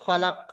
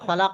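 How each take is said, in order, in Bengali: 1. শব্দটি শেষ ব্যঞ্জনে থেমে যায়। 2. শব্দের শেষে একটি ছোট স্বরধ্বনি আছে। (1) "জাবারটাকে সাকিন করে পড়তে হবে" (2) "জাবারের উপরে অফ করতে গেলে জাবারটাকে সাকিন করে পড়তে হবে"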